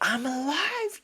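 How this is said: It sounds joyful and euphoric.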